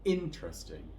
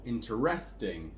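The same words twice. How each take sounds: First: The stress is on the first syllable. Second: The stress is on the third syllable. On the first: The speaker calls it right. "we're going to stress the first syllable here" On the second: The speaker calls it wrong. "on the third one"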